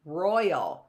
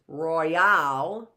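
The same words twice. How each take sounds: First: "royal" stressed on ROY, falling away; first-syllable stress. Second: "royale" slow, punched on the final AL; second-syllable stress. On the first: Teacher offering the alternative, "royal" with first-syllable stress. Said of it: "is the stress on the roy". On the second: Teacher posing an unknown word, "royale" with end stress. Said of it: "is the stress on the al". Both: Shown as a demonstration.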